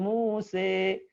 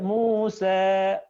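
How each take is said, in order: First: The final vowel is shifted to an e. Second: The final vowel is a slightly tilted a. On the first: "memiringkannya ke kasrah, ya, yang disebut dengan imalah" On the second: "Taklil itu sedikit saja... nggak sempurna A, tapi miring dikit"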